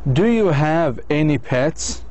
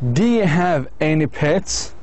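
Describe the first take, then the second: First: Every word is pronounced fully and separately. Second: "Do you" is blended into a short "dya". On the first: "الآن long form" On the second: "بدل you بتصير يا دي"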